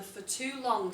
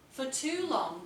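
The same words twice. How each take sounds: First: Said in the usual way. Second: FOR TOO LONG with weight on "too"; stressed opener. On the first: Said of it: "by using that contrast sentence". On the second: Shown as a demonstration. Teacher stressing "For too long" as a model opener. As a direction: lean hard on "too" to open the paragraph. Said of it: "for too long" sentence".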